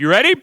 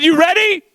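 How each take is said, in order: First: Said in the usual way. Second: Loud, high rallying shout; insistent repeat. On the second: Real, not acted. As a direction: demand a bigger answer from the crowd. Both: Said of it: "I said".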